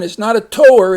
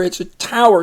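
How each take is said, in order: First: Tower said like "toe-er", with a long O; wrong vowel tower. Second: Tower with "ow" as in cow; ow sound tower. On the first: Teacher showing the wrong vowel to a reader. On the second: Teacher giving the right vowel to a reader. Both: Shown as a demonstration. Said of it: "you got the ow sound".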